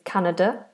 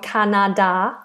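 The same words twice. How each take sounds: First: The unstressed vowels are reduced to schwa. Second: The unstressed vowels are said as full vowels. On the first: The speaker calls it right. "So these are schwas. It's Canada" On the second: The speaker calls it wrong. "We don't want Canada"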